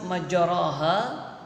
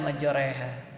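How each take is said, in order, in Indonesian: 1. Vokal setelah r adalah 'a' biasa. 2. Vokal setelah r condong ke bunyi 'e'. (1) "tulisan majaraha" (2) "dibaca majoreha. ... Disebut dengan imalah"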